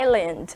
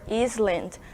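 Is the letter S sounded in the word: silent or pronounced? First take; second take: silent; pronounced. First: The S is silent in the word. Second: The S is pronounced in the word. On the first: The speaker calls it right. "vocês viram que eu falei island" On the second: The speaker calls it wrong. "Eu não falei Iceland or Island, porque nessa palavra a gente não pronuncia a letrinha S"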